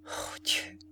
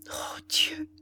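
First: Broken, voiceless whispered sob; inarticulate sob. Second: High, aching cry of dismay; anguished cry. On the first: Ethel sobbing into her hands before her condemned lover. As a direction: choke the words out through tears. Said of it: "sanglota en disant d'une voix inarticulée". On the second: Ethel crying out as Ordener doubts her love. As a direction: cry out to God in pain. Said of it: "s'écria la pauvre jeune fille". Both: A narrator's reading.

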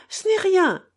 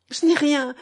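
First: Tearful repeat, much higher and louder; the second try cracks upward with tears; crying harder. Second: A mild tearful protest, raised and louder; crying. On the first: Catherine insists it is nothing, her tearful voice rising higher. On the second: Catherine waves off her tears to Alyosha, mildly tearful. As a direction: brush it off through light tears. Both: A narrator's reading. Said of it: "poursuivit-elle en pleurant".

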